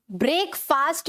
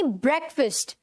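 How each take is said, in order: First: ब्रेकफास्ट said "brake-faast"; long vowels in both halves of ब्रेकफास्ट; wrong pronunciation. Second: ब्रेकफास्ट said "BREK-fust"; short vowels in both halves of ब्रेकफास्ट; correct pronunciation. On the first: Teacher showing students the error, ब्रेकफास्ट mispronounced as "brake-faast". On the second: Teacher modelling for students, ब्रेकफास्ट as "BREK-fust". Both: Shown as a demonstration. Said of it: "ब्रेकफास्ट नहीं".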